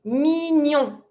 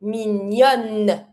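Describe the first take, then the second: First: Mignon ending on a nasal vowel; French "mignon" as meen-yohn, nasal; masculine nasal ending. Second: Mignonne closed on a held N; French "mignonne" as meen-yonn; feminine N ending. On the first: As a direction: leave the N silent in "mignon". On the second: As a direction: sound the final N of "mignonne". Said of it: "you have to double the N". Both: Shown as a demonstration.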